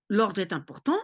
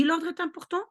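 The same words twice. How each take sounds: First: "important" lifted at the end, as a question; self-posed question. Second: "l'ordre" pitched high, confirming it; emphatic answer. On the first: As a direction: ask it with a rise on "important". Asks herself, then answers oui. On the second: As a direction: answer firmly, higher on "l'ordre". Answers her own question. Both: Shown as a demonstration.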